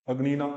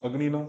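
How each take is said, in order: The two takes are said the same way.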